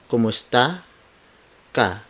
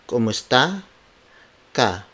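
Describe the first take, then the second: Both takes have the same delivery.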